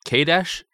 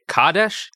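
First: "Kadesh" as KAY-desh, rising in question; alternative pronunciation. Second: "Kadesh" as KAH-desh, rising in question; unsure pronunciation. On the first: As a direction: try out "Kadesh" with a long a, higher and questioning. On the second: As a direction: try out "Kadesh" with an ah, higher and questioning. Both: Shown as a demonstration. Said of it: "I don't know".

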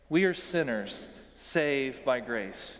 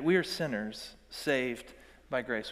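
First: Slower, every word spelled out together; slow unison recitation. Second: Said in the usual way. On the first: Shown as a demonstration. Pastor leads congregation in a shared creed, slow and measured. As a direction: lead the room through the line. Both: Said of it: "Would you say that with me?".

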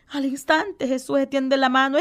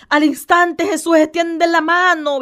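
First: Said in the usual way. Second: Al instante Jesús extiende la mano said louder, instante stressed; emphatic repeat. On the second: Shown as a demonstration. Preacher repeating the verse to his radio listeners, emphatic. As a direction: hammer home instante.

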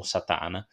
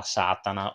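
First: Satana with stress in the middle, sa-TÀ-na; alternative pronunciation. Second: Satana with stress up front, SÀ-ta-na; preferred pronunciation. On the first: Podcaster giving the surname's other reading, Satana as sa-TÀ-na. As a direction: hit the second syllable of Satana: sa-TÀ-na. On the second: Podcaster naming the actress his preferred way, Satana as SÀ-ta-na. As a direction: hit the first syllable of Satana: SÀ-ta-na. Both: Shown as a demonstration. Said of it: "Io preferisco dire Satana".

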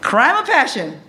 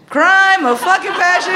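First: Said in the usual way. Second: Crime punched high and hard; stress on crime. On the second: Shown as a demonstration. Comic building the punchline, stress on Crime. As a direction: lean hard on Crime with a big pitch jump.

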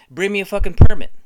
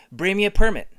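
First: Yelling it much louder, punching fucking; a full hammed-up bellow; shouted demand. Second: Loud demand. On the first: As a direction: scream the demand this time. Repeat, louder. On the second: Pretend. First demand for permit.

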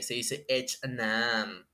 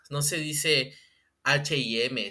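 First: "H and M" said slow, lower and softer, in English; slow, posh-sounding English "H and M"; mock English accent. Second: Said in the usual way. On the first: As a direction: drag out "H and M" like a snob. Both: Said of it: "cómo se pronuncian bien las marcas".

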